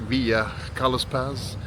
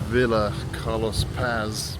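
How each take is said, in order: First: It is said with a general Spanish accent. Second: It is said with an English accent. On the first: "In Spanish, you might say something more like" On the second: "Its name is Villa Carlos Paz in English"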